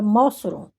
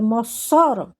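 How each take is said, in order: First: The stress is on the first syllable. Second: The stress is on the middle syllable. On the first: "se fosse Mó, seria Mossoró" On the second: "Ou se fosse Só, seria Mossoró"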